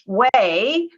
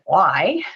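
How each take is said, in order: First: It is pronounced like the word 'way'. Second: It is pronounced like the word 'why'. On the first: This is how the organization itself says it. "which we pronounce way" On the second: This is how screen readers say it. "screen readers pronounce it Y"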